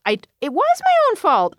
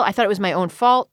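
First: "my own fault" said much higher, pressed home; insistent restatement. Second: Said in the usual way. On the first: Real, not acted. Admitting blame to the interviewer, emphatically higher. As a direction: repeat it higher, really meaning it.

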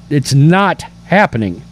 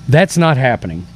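First: "not" in "it's not happening" leaned on, falling; stress on not. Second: Said in the usual way. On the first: Shown as a demonstration. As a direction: dwell on "not" for emphasis. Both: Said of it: "I don't know how else to say it".

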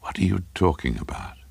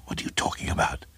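First: Hushed, dawning horror; horrified. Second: Quick stammered whisper; baffled whisper. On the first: Craven as a possible meaning comes to him, horrified. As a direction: ask it softly, with dread. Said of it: "Craven said with horror". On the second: Craven to his babbling neighbour, quick baffled whisper. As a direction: whisper it fast, tripping at the start. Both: A narrator's reading.

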